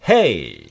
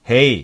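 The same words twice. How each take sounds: First: The pitch is raised high and moves. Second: The pitch stays flat and low.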